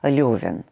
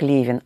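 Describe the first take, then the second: First: The first vowel sounds like 'yo'. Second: The first vowel sounds like 'e'. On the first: "а как Левин" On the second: "не как Левин"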